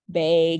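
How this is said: It is said with a Wisconsin accent.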